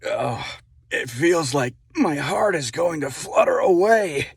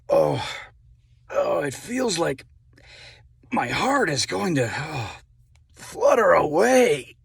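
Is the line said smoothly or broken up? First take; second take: smoothly; broken up. First: It flows in one smooth, even cadence. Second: It is broken up with gasps and pauses.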